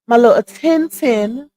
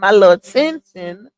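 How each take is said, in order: First: It is said in a put-on character voice. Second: It is said in the speaker's ordinary voice.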